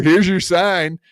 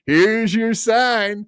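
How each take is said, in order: First: Said in the usual way. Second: A slow, higher, sing-song "Here's your sign"; slow mocking drawl. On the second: Mocking the rival on stream.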